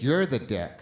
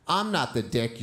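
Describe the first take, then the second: First: You're hit hard, falling; stress on you're. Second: I'm hit hard; stress on I'm. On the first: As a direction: slam the word "you're" down. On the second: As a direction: push the word "I'm" up front. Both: Retold or imitated. Boys trading insults in class.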